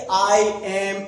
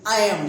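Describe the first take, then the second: First: The two words are said fully and separately. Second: The two words are run together into one. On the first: The speaker calls it wrong. "ऐसा नहीं कि आई एम, इस तरह नहीं।" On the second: The speaker calls it right. "Short form में बोलने में हम इनका छोटा रूप इस्तेमाल करते हैं।"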